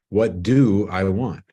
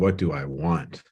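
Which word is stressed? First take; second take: do; want. First: The stress falls on the word do. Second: The stress falls on the word want.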